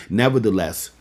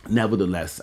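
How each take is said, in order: First: "Nevertheless" punched out loud as a big turn; "Nevertheless" thrown out as a loud preacher's pivot. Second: Said in the usual way. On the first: Shown as a demonstration. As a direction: slam "Nevertheless" down to change the subject.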